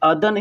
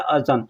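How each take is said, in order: First: The middle consonant is a d sound. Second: The middle consonant is a z sound. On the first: This is how people commonly say it. "लेकिन लोग बोलने के लिए अदन, अदन बोलते हैं।" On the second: This follows the written form. "ज़ाल और नून तो अज़न होता है"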